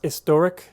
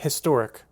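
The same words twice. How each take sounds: First: The word starts without an h sound. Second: The word starts with a clear h sound. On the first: "the British pronunciation for historic was historic" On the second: "pronounce the H, it's a historic"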